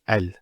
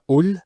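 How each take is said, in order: First: The article is said with an a vowel. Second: The article is said with a u vowel. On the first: The speaker calls it right. "It's always al" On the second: The speaker calls it wrong. "It's never ul"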